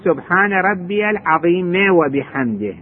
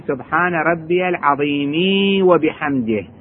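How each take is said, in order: First: No vowel follows 'azim'. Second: A long 'ee' vowel follows 'azim'. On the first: "عظيم ما يريد يقول عظيمي" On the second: "لو تريد تسويها ياء تصير"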